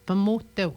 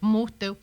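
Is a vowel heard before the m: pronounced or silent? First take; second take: pronounced; silent. First: A vowel is heard between the first two consonants. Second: The first two consonants are said together without vowel. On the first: The speaker calls it wrong. "On dira pas pas motel" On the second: The speaker calls it right. "On n'entend pas le A"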